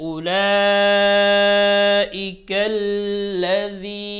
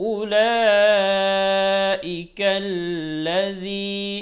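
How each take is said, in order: The two takes are said the same way.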